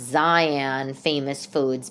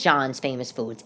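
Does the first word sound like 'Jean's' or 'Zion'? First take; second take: Zion; Jean's. First: The name is read as it looks, 'Zion'. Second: The name is said like 'Jean's'. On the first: The speaker calls it wrong. "it would be pronounced Zion Famous Foods, but like if you just looked at it" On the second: The speaker calls it right. "I think it's Jean's Famous Foods"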